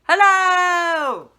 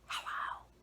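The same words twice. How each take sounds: First: It is said loudly. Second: It is said quietly.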